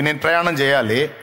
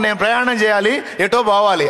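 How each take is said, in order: First: Said in the usual way. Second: Mock vague answer. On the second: Shown as a demonstration. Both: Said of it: "అట్లా కాకుండా".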